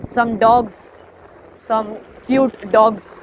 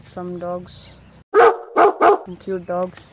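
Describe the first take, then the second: First: Cooing over dogs. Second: Slow, drawn-out doting voice; soft cooing over dogs. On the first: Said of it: "the one in second video". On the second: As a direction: coo it like spotting puppies. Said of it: "that was in the second video". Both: Retold or imitated.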